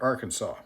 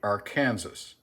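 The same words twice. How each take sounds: First: It does not sound like 'Ar' plus 'Kansas'. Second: It sounds like 'Ar' followed by 'Kansas'. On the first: This is how Americans actually say it. "being Americans, we pronounce that" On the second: This is the spelling-based, logical pronunciation. "the logical uh, way to pronounce that would be"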